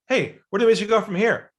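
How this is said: It is said in a pushy, inauthentic way.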